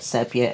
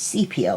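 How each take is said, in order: First: The first syllable does not sound like 'sea'. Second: The first syllable sounds like 'sea'. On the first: The speaker calls it wrong. "the way I used to pronounce it" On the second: The speaker calls it right. "it's sepia, like the sea"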